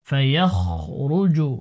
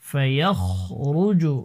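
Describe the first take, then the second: Both takes have the same delivery.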